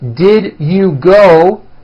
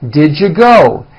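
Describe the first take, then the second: First: Each word is said separately and in full. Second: The words are squeezed together into a reduced form.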